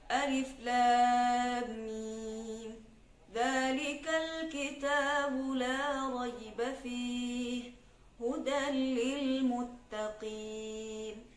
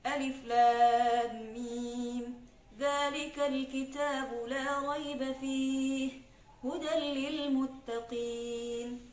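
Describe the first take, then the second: First: The recitation is at a medium speed. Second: The recitation is fast. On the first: "Tidak terlalu cepat dan tidak terlalu lambat, sedang-sedang" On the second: "itu lebih cepat lagi"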